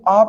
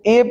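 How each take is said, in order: First: The vowel is a short, neutral 'uh' sound. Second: The vowel is a long 'ay' sound. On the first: The speaker calls it right. "इसको आ pronounce करते हैं" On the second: The speaker calls it wrong. "इसको ए pronounce नहीं करते"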